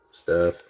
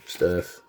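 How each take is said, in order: Both takes have the same delivery.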